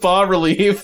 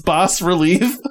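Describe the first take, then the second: First: The S in the first word is silent. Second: The S in the first word is pronounced. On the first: The speaker calls it right. "I believe the S is silent" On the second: The speaker calls it wrong. "I don't think it's bas relief"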